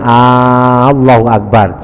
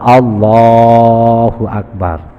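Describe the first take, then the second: First: The opening A sound is drawn out long. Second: The middle of Allah is held long. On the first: The meaning becomes wrong. The speaker calls it wrong. "enggak boleh dibaca A-nya, enggak boleh dibaca panjang" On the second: The meaning is correct. The speaker calls it right. "Yang boleh yang pas bacanya Allahnya panjang"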